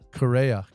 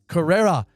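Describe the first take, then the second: First: The name is said without the extra r sound. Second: The name is said with an extra r sound. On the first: The speaker calls it right. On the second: The speaker calls it wrong. "Not Carrera"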